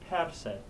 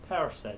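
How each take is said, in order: No difference in how they are said.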